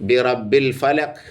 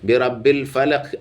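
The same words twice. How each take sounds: The two takes are said the same way.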